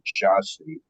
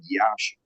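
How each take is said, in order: First: The name is said with English pronunciation. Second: The name is said with Romanian pronunciation. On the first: "if you're, I guess, pronouncing it in English" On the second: "The city was called, is called Iași"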